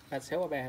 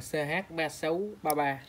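First: Said in the usual way. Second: Slow dictation. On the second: Shown as a demonstration. Seller reading the frame code to viewers, slowly. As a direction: read the code out slowly, digit by digit. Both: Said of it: "Có mã đàng hoàng này".

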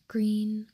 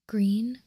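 The two takes are said the same way.

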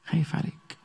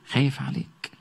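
First: "خايف عليك" breathed out as a soft whisper; whispered plea. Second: Said in the usual way. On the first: Acted. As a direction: whisper "خايف عليك" tenderly, close to the ear.

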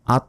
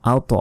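First: আত cut short with a thin t; no bounce on আত; plain everyday "at"; wrong unreleased t. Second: আওত with a heavy t popped into a short "o"; thick, echoed consonant in আওত; bouncing t. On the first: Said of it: "আত নয়". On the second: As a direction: kick the t of আওত loose. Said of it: "ধাক্কা দিয়ে পড়তে হয়". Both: Shown as a demonstration.

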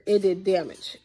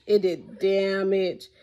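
First: Said in the usual way. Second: "It did damage" drawn out slowly, each word weighted; slow it right down to drive it home; slow emphasis. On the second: Shown as a demonstration. Showing viewers the bleacher cracks, slow and emphatic.

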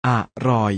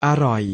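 First: อะรอย split as อะ, short pause, รอย; อะรอย with a clear break after a short อะ; syllable-by-syllable reading. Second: Said in the usual way. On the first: Shown as a demonstration. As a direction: sound out อะรอย in two separate syllables. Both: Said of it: "อ่านว่า".

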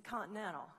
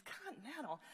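First: Said in the usual way. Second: Mildly scornful query; disdainful echo. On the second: Acted. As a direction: repeat it back as if it's a terrible choice. Hairdresser scornfully echoes the airline.

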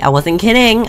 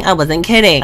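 First: Higher, stressed "I wasn't kidding"; emphatic. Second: Said in the usual way. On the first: Shown as a demonstration. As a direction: insist "kidding" with a lifted pitch. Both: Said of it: "when I said straight, I wasn't kidding".

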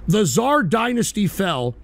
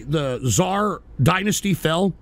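First: Tsar stressed with a falling, settled tune; answering statement. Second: Dynasty lifted into a slow questioning rise; rhetorical question. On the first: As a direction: state it slowly like a verdict. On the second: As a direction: ask it slowly, teasing the answer. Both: Shown as a demonstration. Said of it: "and I'll tell you why".

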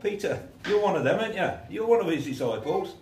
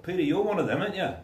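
First: High, loud pointed accusation; a servant girl pressing Peter hard; accusing bystander. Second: High, loud pointed challenge; a bystander pressing Peter again; second accuser. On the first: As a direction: corner Peter with it. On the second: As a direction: push him to admit it. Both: Acted.

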